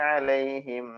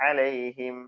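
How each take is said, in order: No difference in how they are said.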